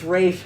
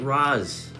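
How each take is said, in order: First: The name ends with an 'sh' sound. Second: The name ends with a 'z' sound. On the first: The speaker calls it right. "It's Raish, guys" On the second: The speaker calls it wrong. "they keep pronouncing it Raz"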